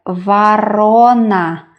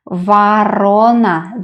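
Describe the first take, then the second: No difference in how they are said.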